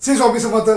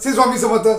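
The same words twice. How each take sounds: Both takes have the same delivery.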